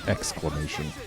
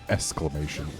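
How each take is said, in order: First: The k sound in the x is pronounced. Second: The k sound in the x is dropped. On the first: The speaker calls it right. "rather than exclamation" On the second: The speaker calls it wrong. "I always skip the k in the x"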